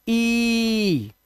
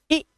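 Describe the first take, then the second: First: ई stretched out very long; long vowel. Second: ई cut very short; short vowel. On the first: Teacher demonstrating a long vowel sound, ई held long. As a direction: hold ई as one long, sustained sound. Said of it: "लंबी आवाज". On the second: Teacher demonstrating a short vowel sound, ई very quick. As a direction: say ई as one quick, brief sound. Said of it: "आवाज बहुत जल्दी आती है". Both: Shown as a demonstration.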